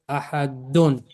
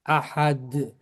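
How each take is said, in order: First: The word ends with a full -un ending. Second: The word stops short without the final ending. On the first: "The word is ahadun" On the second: "I pronounced it ahad with a sukun on it"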